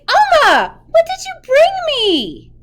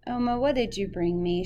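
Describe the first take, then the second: First: It is said in an excited tone. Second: It is said in a flat, plain tone.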